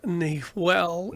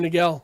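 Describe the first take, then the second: First: The middle consonant is a soft h sound. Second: The middle consonant is a hard g sound. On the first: This is the original pronunciation of the word. The speaker calls it right. "it's actually Laguna Nihuel" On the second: This is the common local pronunciation. The speaker calls it wrong. "everyone's saying that wrong"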